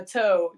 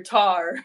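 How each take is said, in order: First: Said in the usual way. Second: "tar", toe with an R tacked on; "tar" with a hard R for the O. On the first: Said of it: "maybe it's the O sound". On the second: Shown as a demonstration. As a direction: say toe as "tar", mock Aussie. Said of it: "you tack on an R".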